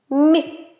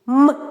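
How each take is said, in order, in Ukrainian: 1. Приголосний м'який, пом'якшений. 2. Приголосний твердий, без пом'якшення. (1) "а м'який як скаже?" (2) "Твердий"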